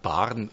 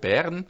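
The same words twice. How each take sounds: First: The E vowel is pronounced in his usual way. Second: The E vowel is pronounced with deliberate care. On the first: The speaker calls it wrong. "und nicht Bern" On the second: The speaker calls it right. "dann muss ich einmal wirklich sagen Bern"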